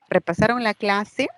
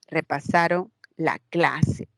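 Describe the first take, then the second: First: The pitch rises at the end. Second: The pitch falls at the end. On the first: It asks a question. "tono, ascendente, inflexión tonal ascendente" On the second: It states a fact. "cuando afirmo"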